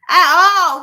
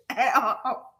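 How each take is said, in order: First: Loud emphatic repeat. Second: Laughing aside. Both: Real, not acted.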